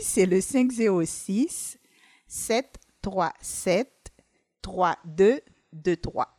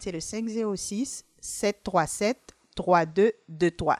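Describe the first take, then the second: First: The number is said slowly. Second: The number is said at normal speed.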